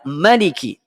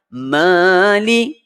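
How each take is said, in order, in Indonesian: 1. Vokal pertama pendek. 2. Vokal pertama panjang. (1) "dia ma dalam surah An-Nas tak panjang" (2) "Mali dibaca panjang"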